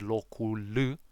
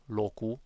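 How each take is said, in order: First: The word ends with an L sound. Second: The word ends without an L sound.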